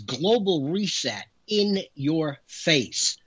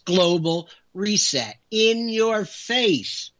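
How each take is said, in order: First: The phrase is said in a plain, even voice. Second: The phrase is said forcefully, with strong emphasis.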